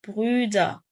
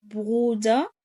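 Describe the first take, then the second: First: Brüder with long rounded ü, loud, falling; Brüder with umlaut. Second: Bruder with a long u, loud, rising at the end; Bruder without umlaut. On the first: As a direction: model Brüder loudly, fronting the ü. (نطق Brüder بصوت ü ممدود ومضموم) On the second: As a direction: model Bruder loudly with plain oo. (نطق Bruder بحرف u ممدود بدون أوملاوت) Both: Shown as a demonstration. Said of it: "تركيزي على حروف الأملاوت".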